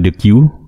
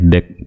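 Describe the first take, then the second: First: It is said as two syllables, 'dee-queue'. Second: It is said as one syllable, 'deck'. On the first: "dibaca dengan the queue" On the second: "biasa juga disebutkan deck"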